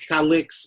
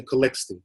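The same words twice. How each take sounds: First: Calix, ending on the X; proper pronunciation. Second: Calixte, as it is said locally; local pronunciation. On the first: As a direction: say Calix without a final T sound. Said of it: "Calix is the proper". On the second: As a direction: say Calixte with a T sound after the X. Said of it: "here, we say Calixte". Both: Shown as a demonstration.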